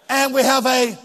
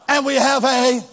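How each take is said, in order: Both takes have the same delivery.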